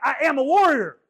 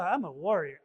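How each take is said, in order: First: It sounds firm and full of conviction. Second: It sounds half-hearted and doubtful.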